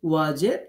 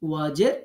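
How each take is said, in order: The two takes are said the same way.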